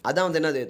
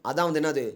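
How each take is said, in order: Both takes have the same delivery.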